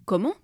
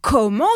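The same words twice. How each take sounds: First: Short puzzled rising question; taken aback. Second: Loud, high, rising exclamation; outraged yell. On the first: Husband hears the neighbour's accusation, taken aback. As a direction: ask in baffled surprise, without shouting. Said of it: "dit le mari interloqué". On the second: Husband hears his wife will keep deciding, outraged yell. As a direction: explode in outraged disbelief. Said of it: "se mit à hurler le mari". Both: A narrator's reading.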